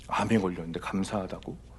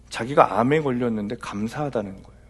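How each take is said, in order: First: Quieter, lower, rising doubtful echo; puzzled disbelief. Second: Said in the usual way. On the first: Retold or imitated. Pastor echoes a claim he found strange, puzzled. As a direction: echo it back, baffled. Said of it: "갸우뚱했어요". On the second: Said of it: "reports a claim".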